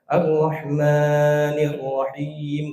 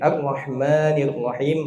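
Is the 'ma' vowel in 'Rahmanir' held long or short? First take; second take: long; short. First: The 'ma' vowel is stretched very long. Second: The 'ma' vowel is held only briefly. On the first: The speaker calls it wrong. "Jangan ... kepanjangan" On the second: The speaker calls it right. "ma-nya cuma dua"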